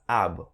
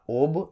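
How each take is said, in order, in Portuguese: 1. A vogal é pronunciada como um 'a'. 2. A vogal é pronunciada como um 'o' completo. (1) "você vai falar ab" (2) "você não vai falar ob"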